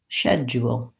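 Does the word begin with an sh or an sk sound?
sh. It begins with sh and has no j sound. This is the British pronunciation. "So they have more of a d and a ya"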